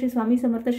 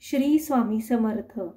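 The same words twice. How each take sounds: First: It is said fast and hurried. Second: It is said slowly and with care. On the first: It is rushed only to finish the count. The speaker calls it wrong. "असं नाही करायचं" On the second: Attention is kept on each repetition of the name. The speaker calls it right. "या स्पीडमध्ये बोलायचं आहे"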